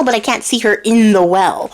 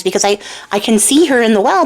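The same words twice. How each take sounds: First: CAN'T hit with a falling final tune; baffled, falling on CAN'T; stress on CAN'T. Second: CAN lifted with a rising puzzled tune; baffled, rising on CAN; stress on CAN. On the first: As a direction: punch CAN'T and let it drop. Puzzled cook compares tree. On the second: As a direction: lean on the word CAN, wondering. Puzzled cook compares reflection. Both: Acted.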